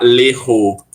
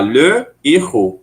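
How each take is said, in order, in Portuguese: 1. O artigo é elidido e ligado à palavra. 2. O artigo é pronunciado separadamente, antes da palavra. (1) "eu não posso falar l'errou juntando" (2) "Eu tenho que falar le errou, separado"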